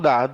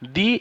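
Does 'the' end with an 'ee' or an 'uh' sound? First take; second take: uh; ee. First: The word ends with an 'uh' vowel. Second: The word ends with an 'ee' vowel. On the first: The next word begins with a consonant sound. "Consonant sound হলে আমরা দা এই আর্টিকেলটা use করব" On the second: The next word begins with a vowel sound. "Vowel sound আসে তাহলে আমরা দি use করব"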